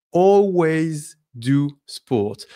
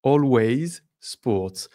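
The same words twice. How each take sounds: First: "always" said slowly and firmly before "do"; slow model sentence with "always" first; correct English order. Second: Slow "always" after "I do"; French word order. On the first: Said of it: "But French people, we say". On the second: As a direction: model the French order slowly. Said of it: "French people, we say, I do". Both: Shown as a demonstration.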